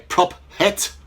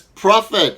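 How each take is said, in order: First: The p and h are split into two sounds. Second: The ph is said as one f sound. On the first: The speaker calls it wrong. "We don't say prop het. that's not right" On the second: The speaker calls it right. "the ph is a digraph. We don't split that"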